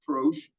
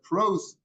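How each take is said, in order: First: The word ends with an sh sound. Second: The word ends with an s sound. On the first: This is the reading with the letter shin. "not prosh" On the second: This is how the word is customarily read. "but pros. We read it that way"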